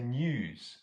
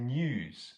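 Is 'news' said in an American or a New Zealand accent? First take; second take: New Zealand; New Zealand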